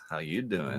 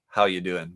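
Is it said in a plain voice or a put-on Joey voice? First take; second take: Joey voice; plain. First: It is said in a put-on Joey voice. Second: It is said in a plain reading voice.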